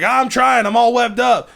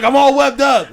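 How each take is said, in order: First: High, whiny, exasperated; mock helpless, pitched up; stuck Marine again. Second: High, plaintive voice; mock helpless, pitched up; stuck Marine. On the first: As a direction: plead from inside the webs. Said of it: "he's like". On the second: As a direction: complain over the intercom while trapped. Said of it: "He's like".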